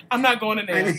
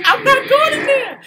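First: Said in the usual way. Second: Laughing high protest. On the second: Real, not acted. Refusing to enter scary area.

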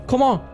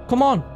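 The two takes are said the same way.

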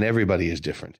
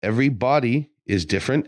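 First: Said in the usual way. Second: "Every body" as two words, BODY weighted; stress on BODY. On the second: Real, not acted. Trainer telling listeners bodies differ, BODY stressed as its own word. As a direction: split EVERY from BODY and lean on BODY.

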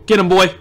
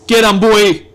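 First: Said in the usual way. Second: Loud, forceful cheer; louder urging. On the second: Real, not acted. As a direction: call it out to spur him on. Repeats cheer with more force.

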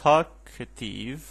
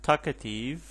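First: Talkative with the first syllable drawn out and loud; stress on TAL. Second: Said in the usual way. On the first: Shown as a demonstration. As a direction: stretch and push the start of talkative. (تاکید روی هجای اول talkative) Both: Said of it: "For example".

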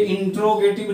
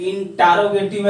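First: इंट्रोगेटिव with "tro" as one syllable; wrong pronunciation. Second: इंटरोगेटिव with "taa-ro" as two syllables; correct pronunciation. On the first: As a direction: run T straight into R in इंट्रोगेटिव, "introgetiv". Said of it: "पर ये इंट्रोगेटिव नहीं है". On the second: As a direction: open up a vowel after the T in इंटरोगेटिव, "intarogetiv". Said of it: "ये इंटरोगेटिव है". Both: Shown as a demonstration.

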